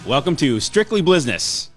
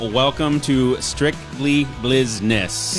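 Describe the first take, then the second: First: It is said fast. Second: It is said slowly.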